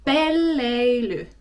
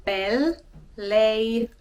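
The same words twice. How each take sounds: First: Pelleily said slowly and clearly, pel-lei-ly; slow, careful Pelleily with each syllable clear; clear Finnish model word. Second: Pelleily drawn out very slowly, double l held; very slowly, Pelleily with the l held long; slow Finnish model word. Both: Shown as a demonstration. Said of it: "introduce to you guys the word pelleily".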